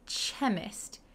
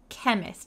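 First: The word begins with a 'ch' sound. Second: The word begins with a 'k' sound. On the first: The speaker calls it wrong. "we don't say chemist" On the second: The speaker calls it right. "We say chemist, like a K"

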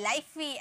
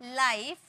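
First: The word ends with an added 'ee' vowel. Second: The word ends on the consonant with no vowel. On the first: The speaker calls it wrong. "ऐसे नहीं पढ़ेंगे" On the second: The speaker calls it right. "ई का कोई sound नहीं होता है"

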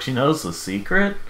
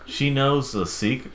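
First: The voice rises at the end. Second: The voice falls at the end.

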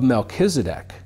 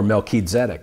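First: The name is pronounced the usual English way. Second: The name is pronounced the Hebrew way.

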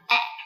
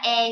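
First: The vowel sounds like a short English e. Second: The vowel sounds like the Vietnamese e. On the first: The speaker calls it right. "mà là e" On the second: The speaker calls it wrong. "Nó không phải là e như trong tiếng Việt"

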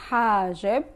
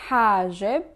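The two takes are said the same way.

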